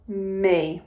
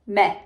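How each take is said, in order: First: The vowel is a long ee sound. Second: The vowel is a short eh sound. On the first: The speaker calls it right. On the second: The speaker calls it wrong.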